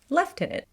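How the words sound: The word is said in a British accent. "or as I hear here"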